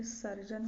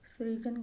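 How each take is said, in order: First: सर्जन starting sar; correct pronunciation. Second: सृजन starting sri; wrong pronunciation. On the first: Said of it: "होता है". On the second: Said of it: "सृजन गलत है". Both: Shown as a demonstration.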